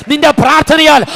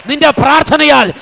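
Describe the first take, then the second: No difference in how they are said.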